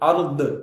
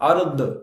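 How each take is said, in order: First: The final consonant bounces with an echo. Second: The final consonant bounces with an echo.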